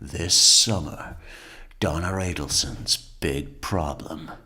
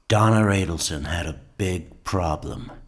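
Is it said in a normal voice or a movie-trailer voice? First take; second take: movie-trailer voice; normal voice. First: It is said in a dramatic movie-trailer voice. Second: It is said in a normal speaking voice.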